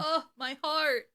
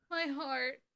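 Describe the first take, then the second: First: High, slow, drawn-out ache; heartfelt swoon. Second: High, soft, touched murmur; hushed swoon. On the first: Fan moved by the actor's delivery, aching swoon. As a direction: sigh it out, deeply touched. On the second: Fan overcome by the actor's delivery, softly touched. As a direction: let it fade, small and aching. Repeats it, more faintly. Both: Real, not acted.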